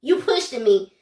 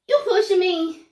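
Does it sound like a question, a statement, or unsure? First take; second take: statement; unsure. First: It is said as a flat statement. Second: It is said in an uncertain way.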